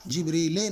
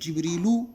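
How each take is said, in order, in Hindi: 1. शब्द का अंत e स्वर से होता है। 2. शब्द का अंत u स्वर से होता है। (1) "जिब्रीले नहीं हो सकता कभी भी" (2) "या तो पेश आएगा या तो ज़बर आएगा"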